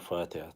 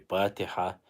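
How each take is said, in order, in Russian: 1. Слово начинается со звука Ф. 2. Слово начинается со звука П. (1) "сейчас мы говорим фатиха, как на арабском должно быть" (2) "мы ранее говорили патиха"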